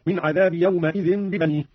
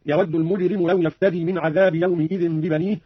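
First: يومئذ said yawmaidhin with a on the m; fatha on mim. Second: Said in the usual way. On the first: Shown as a demonstration. Teacher demonstrates Qalun's fatha on the mim. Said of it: "هكذا". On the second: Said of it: "قرأ قالون بفتح الميم".

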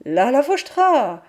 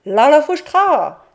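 First: Shouted. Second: High, loud shouted la la fouchtra; shouted call. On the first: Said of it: "J'ai crié". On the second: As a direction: shout it out at the door. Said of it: "tu crieras". (la mère dicte le cri à crier) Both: Retold or imitated.

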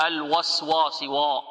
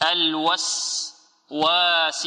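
First: الوسواس with a thick, full-mouthed و; wrong heavy waw. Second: الوسواس slow with a thin, unrounded و; light waw. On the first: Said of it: "وهذا خطأ". (تفخيم الواو خطأ) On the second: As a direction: keep the waw of الوسواس light, not heavy. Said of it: "لا نقول الوسواس". (الواو مرققة ببطء) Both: Shown as a demonstration.

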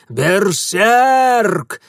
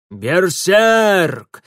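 First: Ещё громче и выше, грубо; выкрикнуть тревогу во всё горло; крик воинов. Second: Громкий тревожный крик, грубым голосом; заорать в тревоге; крик воинов. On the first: (громкий крик воинов) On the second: (тревожный крик воинов) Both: A narrator's reading. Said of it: "заорали воины".

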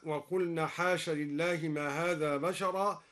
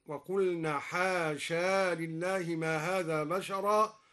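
First: Said in the usual way. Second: حاشا recited with the long final alif, slow; alif kept. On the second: Shown as a demonstration. Teacher recites حاشا keeping the alif, slow chant. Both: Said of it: "أثبت الألف وصلا".

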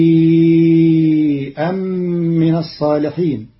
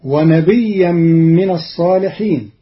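First: ونبيئا with a long ī and a hamza, nabīʾan, chanted; ونبيا chanted with madd and hamza; Qalun reading. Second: ونبيا chanted with a doubled ya, nabiyyan; tajweed chant; Quran recitation. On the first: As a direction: stretch ونبيا over four beats before the hamza. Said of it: "فتصير". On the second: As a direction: melodic recitation. Verse recited before the rule. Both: Shown as a demonstration.

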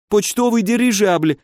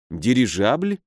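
First: High-pitched, pained exclamation; desperate explanation. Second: Puzzled question. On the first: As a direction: blurt it out in a high frightened voice. (испуганно, высоким голосом) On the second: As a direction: echo the word doubtfully, pitch rising at the end. Hero queries the baron's word. (недоумённый вопрос с повышением в конце) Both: A narrator's reading.

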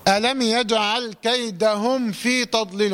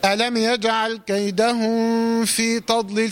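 First: Meem of كيدهم closed cleanly, no hum, straight on to في; slow recitation with a distinct short م ending كيدهم; clear meem. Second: Meem of كيدهم hidden in a held nasal hum before في; slow chant, humming from كيدهم into في; mistaken hidden meem. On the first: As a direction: pronounce كيدهم fully, then في without a gap. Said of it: "عشان توضح الميم". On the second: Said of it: "الخطأ هنا سهل جدًا". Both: Shown as a demonstration.

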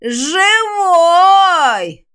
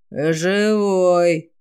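First: High, loud, drawn-out screech; rising to a near-ultrasonic squeal; undead shriek. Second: Low, drawn-out undead croak; eerie creaking monster voice; quiet creaky rasp. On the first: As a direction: screech it piercingly like a monster. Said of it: "едва ли не ультразвуком завизжало". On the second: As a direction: creak it out slowly like a corpse. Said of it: "тихо проскрипел голос". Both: A narrator's reading.

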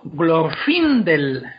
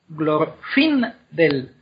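First: "Glorfindel" slow, stressed on FIN. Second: "Glorfindel" broken into glor, FIN, del; very slow "Glorfindel", pausing between syllables. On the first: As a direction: stretch out "Glorfindel" with the weight on FIN. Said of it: "es la segunda sílaba". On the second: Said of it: "Si dividimos el nombre en sílabas". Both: Shown as a demonstration.

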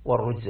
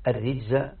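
First: والرجز as "war-rujza", with u; damma on the ra. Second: الرجز as "ar-rijza", with i; kasra on the ra. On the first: Teacher contrasting two readings, والرجز said "war-rujza". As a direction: say والرجز with short u after the r. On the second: Teacher contrasting two readings, الرجز said "ar-rijza". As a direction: say الرجز with short i after the r. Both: Shown as a demonstration. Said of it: "قرأت بهذا وهذا".

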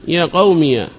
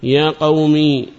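First: يا قومي said as "ya qawmiya"; opened final ya. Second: يا قومي drawn out to a long ī; still final ya. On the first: Teacher illustrating the second dialect, يا قومي ending in -iya. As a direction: finish يا قومي with ya plus short a. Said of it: "إثبات الياء مفتوحة". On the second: Teacher illustrating the first dialect, يا قومي ending in long ī. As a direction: stretch the final ī of يا قومي, no vowel after. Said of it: "إثبات الياء التي أضيف إليها ساكنة". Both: Shown as a demonstration.

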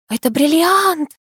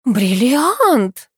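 First: High, drawn-out exclamation; exclaiming. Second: Higher, breathy echo of an exclamation; breathy awe. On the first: Diana to the others on seeing the ring, exclaiming. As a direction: cry out, stretching the word. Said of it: "воскликнула Диана". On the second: Katya echoing her friend about the ring, breathy. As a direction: repeat it with an awed breath. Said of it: "с придыханием повторила Катя". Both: A narrator's reading.

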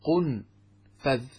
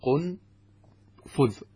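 First: قنفذ as qun-fadh, a after the f; fatha on the fa. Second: قنفذ as qun-fudh, u in both syllables; damma on both syllables. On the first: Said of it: "بضم القاف وسكون النون وفتح الفاء". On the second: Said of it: "بضمتين بينهما سكون". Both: Shown as a demonstration.

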